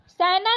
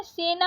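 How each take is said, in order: First: सेना said "sai-na", open ai vowel; wrong vowel. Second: Said in the usual way. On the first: Shown as a demonstration. Teacher showing the misspelling, सेना with ai vowel. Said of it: "सेना नहीं होता है". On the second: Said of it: "सेना होता है".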